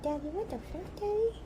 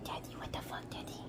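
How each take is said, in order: First: Higher pitched, rising on the second Daddy; dog's voice pitched up. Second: Breathy whisper for the dog's line. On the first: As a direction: squeak it up like the puppy. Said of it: "She's like". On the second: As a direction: hush it like a sneaky pup talking. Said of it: "Luna's like". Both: Pretend.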